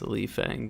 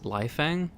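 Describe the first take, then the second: First: The name is pronounced in a Japanese style. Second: The name is pronounced in a Taiwanese style. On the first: "If I'm thinking based on Japanese pronunciation" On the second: "based on it being Taiwanese"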